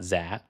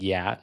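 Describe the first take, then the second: First: "za" for Dạ, with a z sound; Northern pronunciation. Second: "yeah" for Dạ, with a y sound; Southern pronunciation. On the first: Learner shows what the South does not say, Northern z pronunciation. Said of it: "the way the Northern-, Northerners do". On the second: Learner corrects the tutor on Southern speech, y-sound pronunciation. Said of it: "in the South, they would pronounce it". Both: Shown as a demonstration.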